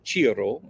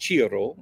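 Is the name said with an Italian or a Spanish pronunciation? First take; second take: Italian; Italian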